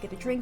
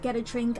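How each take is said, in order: First: The phrase is said quickly. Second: The phrase is said slowly. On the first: The speaker calls it wrong. "I was being a little fast" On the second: The speaker calls it right. "better if I say it a bit slower"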